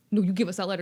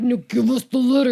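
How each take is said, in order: First: Said in the usual way. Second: Loud, hammed-up angry order; raised-voice comic outburst; mock angry demand. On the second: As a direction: demand it loudly, playing the furious guardian. Retold quarrel escalates over letter.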